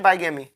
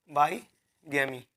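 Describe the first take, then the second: First: Said in the usual way. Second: बाईगैमी said slowly in two parts, lower and softer; बाईगैमी split by a pause, as if writing it; slow dictation. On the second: Shown as a demonstration. Teacher writing the next word for students, slow dictation of बाईगैमी.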